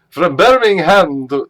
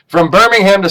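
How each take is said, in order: First: It is spoken in a put-on British accent. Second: It is spoken in the speaker's normal accent. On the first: "Maybe maybe I should speak in a British accent" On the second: "okay, I won't"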